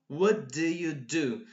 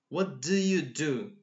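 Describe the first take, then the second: No difference in how they are said.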